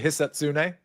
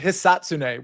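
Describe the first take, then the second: First: The stress is on a later syllable. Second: The stress is on the first syllable. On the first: The speaker calls it wrong. "as opposed to" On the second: The speaker calls it right. "with the emphasis on like that first syllable"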